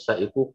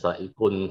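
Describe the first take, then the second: First: The word ends in a vowel, no final n. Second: The word ends with an added n sound. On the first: The speaker calls it right. "qafnya jangan dibaca tanwin" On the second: The speaker calls it wrong.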